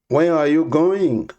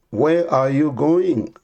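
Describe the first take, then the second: No difference in how they are said.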